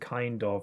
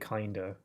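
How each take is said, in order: First: Both words are said fully and separately. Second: The words run together into one reduced word. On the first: This is the usual local way to say it. "instead of saying kind of" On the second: This sounds American to local listeners. "I say kinda"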